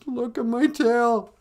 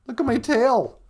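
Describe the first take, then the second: First: High, slow, loud wail; mock crying. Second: High, loud outraged cry; cursing. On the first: Beaver seeing his ugly flattened tail, mock crying. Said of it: "he starts to cry". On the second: Acted. Beaver showing Gitchimanadu his ruined tail, cursing. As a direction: yell it as an angry complaint. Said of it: "And he curses".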